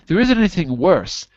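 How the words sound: The strongest stress falls on worse. The speaker calls it right. "Try putting the more stress on worse"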